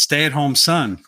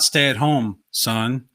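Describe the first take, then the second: First: It is said with no pause before "Son". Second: There is a pause before "Son".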